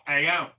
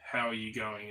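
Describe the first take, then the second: First: "How you going?" run together as one quick word, higher and louder; clipped Aussie "How you going?". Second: Said in the usual way. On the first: Shown as a demonstration. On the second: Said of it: "so instead of saying".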